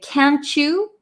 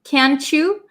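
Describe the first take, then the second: First: The words run together quickly like 'can'tcha'. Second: The words run together quickly like 'can'tcha'.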